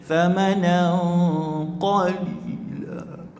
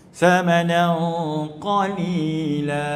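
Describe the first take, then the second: First: It ends strained, clearly out of breath. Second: It ends calmly with breath still left. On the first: The stop is forced because breath ran out. The speaker calls it right. "Memang nampak lah tu, kalau dia sambung lagi meninggal orang tu" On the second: The stop is chosen while breath remains. The speaker calls it wrong. "selesa je pun berhenti, maknanya tak menunjukkan nafas tu habis"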